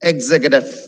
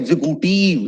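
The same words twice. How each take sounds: First: The ending of the word is cut short. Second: The ending of the word is drawn out. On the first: The speaker calls it right. "the right way is to say executive" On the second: The speaker calls it wrong. "നീട്ടിക്കൊണ്ട് പോവായിരിക്കും"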